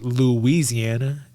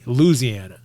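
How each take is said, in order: First: The 'ee' after 'Lou' is kept, like 'Louise'. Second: The 'ee' after 'Lou' is dropped entirely. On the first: "They don't say Louisiana like your husband Louise" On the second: "They say Louisiana"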